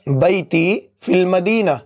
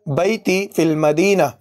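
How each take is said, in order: Both takes have the same delivery.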